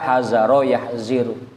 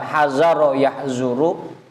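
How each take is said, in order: First: The second word has an 'i' vowel after z. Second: The second word has an 'u' vowel after z. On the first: The verb follows the doroba pattern. "bisa dibaca hazaro yahziru" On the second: The verb follows the nasoro pattern. "bisa dibaca hazaro yahzuru"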